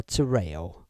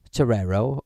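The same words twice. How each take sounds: First: Terreo gliding from "ay" into "oh"; alternative pronunciation. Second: Terrero with a clear r before the final o; alternative pronunciation. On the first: Streamer asking chat about the name, Terreo said without the second r. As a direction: say "Terreo" as "tuh-RAY-oh". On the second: Streamer asking chat about the name, Terrero said with both r sounds. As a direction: say "Terrero" as "tuh-RAIR-oh". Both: Shown as a demonstration. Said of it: "is it pronounced Terrero or Terreo".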